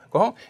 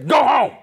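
First: It is said gently and pleadingly. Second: It is said sharply with authority.

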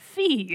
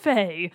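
First: The vowel sounds like 'ee' in 'see'. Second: The vowel sounds like 'ay' in 'say'. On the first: The speaker calls it right. "the correct pronunciation is Fee" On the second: The speaker calls it wrong. "It is not, in fact, Fey"

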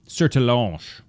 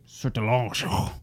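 First: The name ends plainly with no extra sounds. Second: The name ends with exaggerated guttural French sounds.

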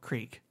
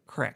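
First: The vowel is a long ee sound. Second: The vowel is a short i sound. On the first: The speaker calls it right. "Oh, creek" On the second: The speaker calls it wrong. "people around here say crick"

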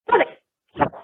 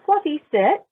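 First: It is said harshly, like a sharp order. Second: It is said gently, like an invitation.

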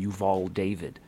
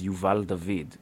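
First: The name is given an American pronunciation. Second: The name is given an Israeli pronunciation. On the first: This is how the name is said in the United States. "in America it's become" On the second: This is how the family says the name. "The way my family pronounces it"

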